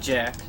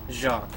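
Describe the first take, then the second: First: The name is said the English way, like Jack. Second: The name is said the French way, like Zhahk. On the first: The speaker calls it wrong. "Not Jack" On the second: The speaker calls it right. "The French way of pronouncing it would be Jacques"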